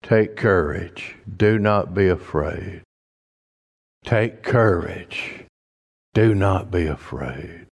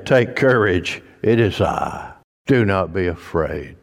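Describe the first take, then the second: First: Slower, softer, comforting words; slow reassuring repeat. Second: Said in the usual way. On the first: Shown as a demonstration. Preacher reassuring the church, slow and soft. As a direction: let each phrase sink in gently. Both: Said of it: "what a church needs to hear today".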